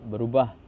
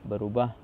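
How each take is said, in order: No difference in how they are said.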